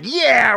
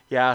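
First: It is said with high, lively energy. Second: It is said with low, casual energy. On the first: This is how they talk once recording starts. "I think it's the energy level" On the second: This is how they talk before recording starts. "Before it was like"

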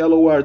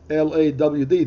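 First: The word is said in a standard accent. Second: The word is said in a Southern accent. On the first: "they don't say Lord" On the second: "now in the South, when they say Lord ... they say Lawd"

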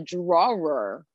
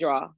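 First: The W sound in the middle is emphasized. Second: The W sound in the middle is not emphasized. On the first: This is how the speaker's coworkers say it. "They emphasize the W" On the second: This is the speaker's own way of saying it. "I don't emphasize it"

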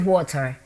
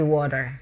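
First: It is said with the local accent. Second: It is said with an American accent.

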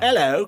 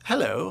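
First: It is said in a Cockney accent. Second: It is said in a posh RP accent. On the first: "going from that to like something like Cockney" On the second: "whenever I do RP stands for received pronunciation. Whenever I do that I sound like an evil villain"

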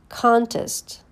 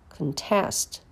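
First: The stress is on the first syllable. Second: The stress is on the second syllable. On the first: It is a noun. "First, you hear the noun" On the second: It is a verb. "and then the verb"

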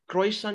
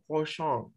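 First: It is pronounced with an English-style sound. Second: It is pronounced with a French-style sound. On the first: "in Bahasa or even English, croissant" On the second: "In French you don't spell croissant, croissant"

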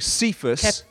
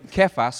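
First: The name begins with an s sound. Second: The name begins with a k sound. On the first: This is the commonly heard pronunciation. "often it's pronounced" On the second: This is the original Greek and Aramaic pronunciation. "The Greek Aramaic would be"

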